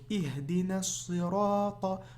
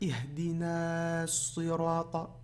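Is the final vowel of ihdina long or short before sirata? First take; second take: short; long. First: The last vowel of ihdina is cut short. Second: The last vowel of ihdina is held long. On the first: The speaker calls it right. "la prolongation disparaît" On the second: The speaker calls it wrong. "vous n'allez pas dire Ihdina sirata"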